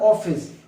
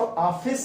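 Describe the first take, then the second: First: The first vowel is a rounded 'o' sound. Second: The first vowel is an open 'aa' sound. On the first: "न ऑफिस" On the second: "न तो ऑफिस होता है"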